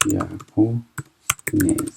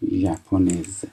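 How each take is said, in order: First: ژاپنز stretched out very slowly, sound by sound; very slow repeat. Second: Said in the usual way. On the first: Shown as a demonstration. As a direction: drag ژاپنز out so every sound is heard. (ژاپنز را خیلی آهسته و کشیده بگو)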